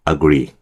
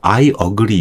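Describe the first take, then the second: First: 'I' merges into 'agree' as one word. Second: 'I' and 'agree' are said as separate words. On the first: The speaker calls it right. "agree 이 정도밖에 안 나요" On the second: The speaker calls it wrong. "이렇게 안 나고요"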